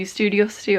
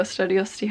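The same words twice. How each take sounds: First: "Studiosity" as one uncertain option; first of two guesses at "Studiosity"; first pronunciation attempt. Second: "Studiosity" said the other possible way; second guess at "Studiosity"; alternative pronunciation. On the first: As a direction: try one way of saying "Studiosity". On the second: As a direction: offer another way of saying "Studiosity". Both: Shown as a demonstration. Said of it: "however it's pronounced".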